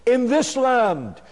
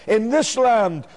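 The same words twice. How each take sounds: The two takes are said the same way.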